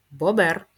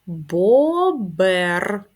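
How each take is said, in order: First: Said in the usual way. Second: Бобер. drawn out, louder, syllable by syllable; teacher modelling slow reading. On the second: Shown as a demonstration. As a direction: read Бобер. slowly by syllables. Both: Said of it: "прочитаємо їх".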